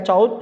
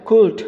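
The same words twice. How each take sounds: First: "could" said like "cowld", with an ow sound; the mistaken "could", rhymes with "cowled"; wrong could. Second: "could" said "kood", short u, silent l; the correct "could", like "good" with a k; right could. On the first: Teacher showing students the wrong way to read could. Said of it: "bacanya could bukan could". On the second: Teacher showing students the right way to read could. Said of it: "bacanya bukan could loh, bacanya could". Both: Shown as a demonstration.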